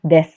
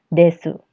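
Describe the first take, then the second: First: The final vowel is dropped, ending in s. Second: The final vowel is pronounced fully after s. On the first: The speaker calls it right. "dibacanya des" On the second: The speaker calls it wrong. "bukan desu"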